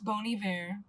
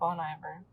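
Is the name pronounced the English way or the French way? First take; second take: French; English. First: The name is pronounced the French way. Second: The name is pronounced the English way. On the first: The speaker calls it right. "It's like a French word, that's how you pronounce it correctly" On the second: The speaker calls it wrong. "Like a moron"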